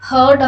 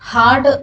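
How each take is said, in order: First: The vowel is an 'er' sound. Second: The vowel is an open 'ah' sound. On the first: The speaker calls it wrong. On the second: The speaker calls it right.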